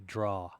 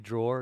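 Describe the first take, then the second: First: The word ends without an R sound. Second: The word ends with an R sound. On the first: "Or do you say draw?" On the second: "do you say drawer?"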